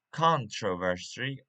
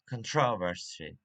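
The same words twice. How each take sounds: First: "controversy" with strong CON at the start; "controversy" said CON-tro-ver-sy; stress on first syllable. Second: "controversy" with strong TROV and weak first syllable; "controversy" said con-TROV-er-sy; stress on second syllable. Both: Shown as a demonstration. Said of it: "where to put the stress".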